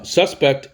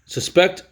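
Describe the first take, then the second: First: Suspect said SUS-pect; full, stressed SUS in suspect; stress on first syllable. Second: Suspect said sus-PECT; weak first syllable, stressed PECT in suspect; stress on second syllable. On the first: Teacher naming suspect as the noun, first syllable stressed. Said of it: "is a noun". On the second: Teacher naming suspect as the verb, second syllable stressed. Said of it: "is the verb". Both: Shown as a demonstration.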